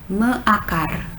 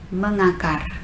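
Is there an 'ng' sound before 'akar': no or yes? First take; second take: no; yes. First: The prefix joins akar with no added sound. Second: An 'ng' sound links the prefix to akar. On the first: The speaker calls it wrong. "which one is more comfortable to pronounce" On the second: The speaker calls it right. "simply for ease of pronunciation"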